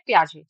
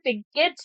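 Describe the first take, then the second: First: The name is said as 'pee-ah-zhay', ending softly. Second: The name is said as 'pig-et', following spelling. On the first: The speaker calls it right. "लेकिन प्रोनाउंस हम करते हैं पियाजे" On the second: The speaker calls it wrong. "लिखने में पिगेट बोल सकते हैं"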